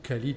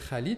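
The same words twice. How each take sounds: First: The name begins with a plain k sound. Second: The name begins with a rough throaty sound. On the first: This is the form for those who lack the throaty sound. "pour ceux qui ne sont ni germanophones, ni hispanophones, ni arabophones" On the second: This is the original form of the name. "c'est mon prénom"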